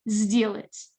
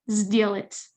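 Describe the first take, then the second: First: The first consonant is a voiced Z sound. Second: The same.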